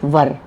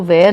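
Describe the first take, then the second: First: The vowel sounds like 'er'. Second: The vowel sounds like 'air'. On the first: The speaker calls it right. "इसका pronunciation है वर" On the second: The speaker calls it wrong. "इसको वेयर नहीं बोला जाता"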